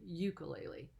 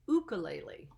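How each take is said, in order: First: It is said in the everyday English style. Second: It is said in the original native style. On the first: This is the casual way people here usually say it. "a lot of times we just say" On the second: This is how the word is pronounced where it comes from. "the real way they pronounce it is"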